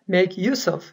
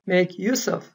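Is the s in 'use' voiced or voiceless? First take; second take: voiceless; voiceless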